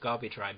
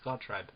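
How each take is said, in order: First: The name is said with two syllables. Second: The name is said with one syllable. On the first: The speaker calls it wrong. "I always read it as Gabi Tribe" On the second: The speaker calls it right. "But no, it's Gaw Tribe"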